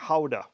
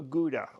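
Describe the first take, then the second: First: The G is said the Dutch way. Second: The G is said the usual English way.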